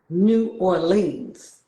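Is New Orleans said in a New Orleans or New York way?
New York. It is said with a New York accent. The speaker calls it wrong. "New Yorkers, you know, we we have a certain kind of accent"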